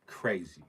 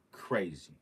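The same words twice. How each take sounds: The two takes are said the same way.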